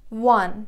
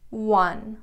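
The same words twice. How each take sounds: First: "One" said loud and clear, pitch held level; announced headword. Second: Said in the usual way. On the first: Shown as a demonstration. Teacher calls out "One" to Persian learners, loud and clear. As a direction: call out "One" firmly like a teacher. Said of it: "این که به معنی عدد یک". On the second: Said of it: "حالت گذشتهٔ وین".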